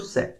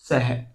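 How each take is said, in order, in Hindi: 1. यह सीधे खत्म होता है, कोई h ध्वनि नहीं। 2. यह अंत में फुसफुसाती h ध्वनि जोड़कर खत्म होता है। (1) "हिंदी में बोले तो स" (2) "संस्कृत में बोलेंगे तो सह, है की ध्वनि उच्चारित होगी"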